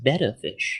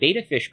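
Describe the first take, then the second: First: The first vowel sounds like 'bet'. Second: The first vowel sounds like 'bay'. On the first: The speaker calls it right. "I learned it's actually pronounced betta fish" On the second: The speaker calls it wrong. "some people pronounce it beta fish"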